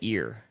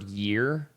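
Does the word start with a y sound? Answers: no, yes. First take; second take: no; yes. First: The word starts without a y sound. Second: The word starts with a y sound. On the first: "she'll say ear" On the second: "instead of the word year"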